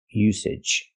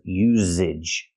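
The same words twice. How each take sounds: First: The middle consonant is a voiceless s sound. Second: The middle consonant is a voiced z sound. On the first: The speaker calls it right. "We have to use the S sound" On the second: The speaker calls it wrong. "I cannot make a voice and say z"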